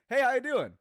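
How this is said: The greeting sounds bright and cheerful. The speaker calls it right. "a little bit more bright"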